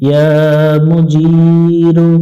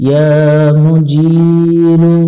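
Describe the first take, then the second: The two takes are said the same way.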